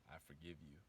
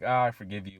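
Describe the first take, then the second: First: It sounds earnest and sincere. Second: It sounds casual and dismissive.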